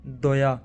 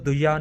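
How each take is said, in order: First: ਦੋਇਆ opened to an "o", "do-ya"; correct ਦੋਇਆ. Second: ਦੁਇਆ with a short "u", "du-ya"; misread ਦੁਇਆ. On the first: Teacher modelling the right reading, ਦੋਇਆ with an "o" vowel. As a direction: say ਦੋਇਆ as "doya". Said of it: "ਇਹਨੂੰ ਪੜ੍ਹਨਾ ਦੱਦੇ". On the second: Teacher showing what not to read, ਦੁਇਆ with short "u". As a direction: say ਦੁਇਆ as "duya". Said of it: "ਇਹਨੂੰ ਦੁਇਆ ਨਹੀਂ ਪੜ੍ਹਨਾ". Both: Shown as a demonstration.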